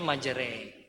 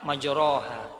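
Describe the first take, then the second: First: The vowel after r leans toward an e sound. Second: The vowel after r is a plain a sound. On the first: The speaker calls it right. "tapi majre" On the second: The speaker calls it wrong. "bacanya jangan majroha"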